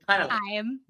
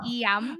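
First: The vowel sounds like the word eye. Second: The vowel sounds like the letter E. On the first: The speaker calls it wrong. "they always pronounce. I'm instead of E-M" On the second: The speaker calls it right. "If you think of an I as an E, you'll get it correct"

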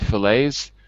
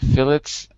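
First: It is said the American English way. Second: It is said the British English way. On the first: "in American English, we tend to say fillets" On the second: "I've heard people in British English say fillets"

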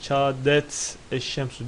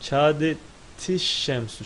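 First: The t ends with no vowel before sh. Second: An i vowel links the t to sh. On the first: The speaker calls it wrong. "diye okunmaz" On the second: The speaker calls it right. "şeklinde okunur"

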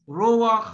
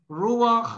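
No difference in how they are said.

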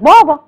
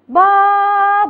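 First: The word is said in a natural way. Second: The word is said in an exaggerated way. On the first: The speaker calls it right. "هي بتقال بابا" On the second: The speaker calls it wrong. "ما اقولش بابا، هو ما بتتقالش كده"

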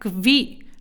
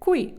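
First: The word begins with a 'kv' sound. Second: The word begins with a 'kw' sound. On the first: The speaker calls it wrong. "не квакаємо. Тому не кві" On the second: The speaker calls it right. "Стараємося вимовляти qui"

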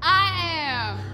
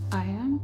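First: It is said with strong feeling. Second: It is said flatly, without much feeling.

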